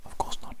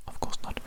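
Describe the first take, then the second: No difference in how they are said.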